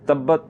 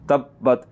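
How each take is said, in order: First: The doubled 'b' is passed over without holding. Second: The breath is briefly held on the doubled 'b'. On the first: The speaker calls it wrong. "तो ये गलत है" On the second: The speaker calls it right. "बा को पढ़ते हुए आपने थोड़ा सा सांस को रोकना है"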